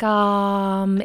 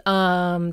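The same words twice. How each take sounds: First: British "um", open toward "ah" and more forward. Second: "um" held in the middle of the mouth; American um. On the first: Coach contrasting accents' hesitation sounds, British um. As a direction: place "um" forward, as in standard British. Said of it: "closer to an R and a little more forward". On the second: Coach showing her own hesitation sound, American um. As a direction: neutral American "um", mouth at rest. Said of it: "mine is here". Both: Shown as a demonstration.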